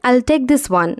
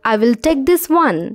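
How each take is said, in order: First: I will is shortened to one syllable. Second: I will is said as two full words.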